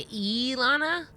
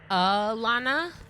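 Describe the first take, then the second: First: The first vowel is a full 'ee' sound. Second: The first vowel is a weak 'uh' sound. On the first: "the I is pronounced like E" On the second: "they're using the schwa"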